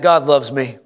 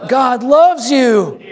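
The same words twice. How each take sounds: First: Said in the usual way. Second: High, slow emphatic preacher's cry; like you mean it. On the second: Shown as a demonstration. Pastor showing the congregation how to mean it, fervent proclamation. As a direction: proclaim it with full conviction, drawn out and high. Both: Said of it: "Now say it like you mean it".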